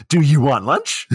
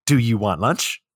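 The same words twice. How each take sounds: First: Travolta's weird voice. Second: Said in the usual way. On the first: Retold or imitated. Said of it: "It's in that voice, in that damn voice". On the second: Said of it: "It's in that voice".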